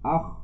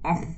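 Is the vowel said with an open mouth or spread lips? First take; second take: open mouth; spread lips. First: The vowel is said with the mouth opened wide. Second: The vowel is said with lips spread in a smile. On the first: The speaker calls it right. "Tarik ke atas. Lebarkan, tinggikan buka mulut" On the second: The speaker calls it wrong. "jangan baca ah, jangan senyum"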